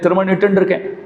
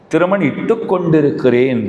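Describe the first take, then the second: First: The verb is said in a shortened, clipped form. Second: The verb is said in its full, long form. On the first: This is how people here say it colloquially. "बोली ऐसा है यहां" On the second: This is the formal correct wording. "सही शब्द तो वो है"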